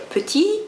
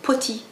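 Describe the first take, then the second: First: The first vowel is a neutral e sound. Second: The first vowel is an o sound. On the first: This is the standard French pronunciation. "Au lieu de dire petit" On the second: This is how a Persian speaker would say it. "il va te dire poti"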